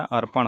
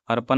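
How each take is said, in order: First: अर्पण ending in retroflex "ṇ"; retroflex final ṇ. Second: अर्पण ending in plain "n"; dental final n. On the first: Teacher giving the correct form, अर्पण with retroflex ṇ. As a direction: curl the tongue back on the end of अर्पण. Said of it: "अर्पण होता है". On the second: Teacher showing the wrong form, अर्पण with dental n. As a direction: say अर्पण as "arpan", no retroflex. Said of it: "नहीं होता". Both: Shown as a demonstration.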